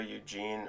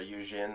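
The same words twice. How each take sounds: First: The name is said with English pronunciation. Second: The name is said with French pronunciation.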